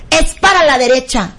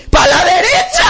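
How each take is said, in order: First: Imitating a self-assured declaration; confident assertion. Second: High, laughing mock shout; comic triumphant cry. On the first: Friend giving driving directions, imitated confident assertion. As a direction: state it firmly, evenly, with total certainty. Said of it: "con su carácter y con todo lo que la caracteriza". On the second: Driver obeying the friend's wrong directions, comic cry. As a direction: cry it out with rising pitch.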